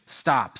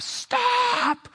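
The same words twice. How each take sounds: First: Said in the usual way. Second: Very high, held-out cry without full volume; mock scream. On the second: Father to daughter in the truck's path, restrained high scream. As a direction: imitate a scream, holding back the volume. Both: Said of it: "just screams".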